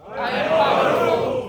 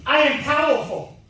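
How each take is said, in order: First: Shouted affirmation, slow and huge; booming motivational speech. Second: Booming motivational speech. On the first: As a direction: roar it back like a crowd chant. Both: Shown as a demonstration. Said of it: "repeat after me".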